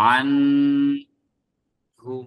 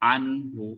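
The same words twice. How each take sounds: First: The n is held with a nasal hum. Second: The n is said clearly with no nasal hum. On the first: The speaker calls it wrong. "সেটা ভুল হবে" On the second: The speaker calls it right. "স্পষ্ট করে পড়তে হবে"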